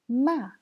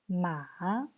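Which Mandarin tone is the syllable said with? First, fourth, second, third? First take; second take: fourth; third. First: It is said with the fourth tone. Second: It is said with the third tone. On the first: "c'est le quatrième ton" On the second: "C'est le troisième ton. Ça, c'est très clair parce que ça descend et ça remonte après"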